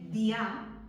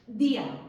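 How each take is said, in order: First: The i and a merge, stress on a. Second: The i and a split, stress on i. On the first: The speaker calls it wrong. "Si yo no quiero que suene día" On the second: The speaker calls it right. "le tengo que poner la tilde a la I"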